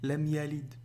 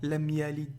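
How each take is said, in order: Both takes have the same delivery.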